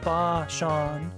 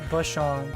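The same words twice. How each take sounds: First: The second vowel is drawn out long. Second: The second vowel is short and clipped. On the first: The speaker calls it right. "I should be saying it correctly" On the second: The speaker calls it wrong. "It's not Bashan"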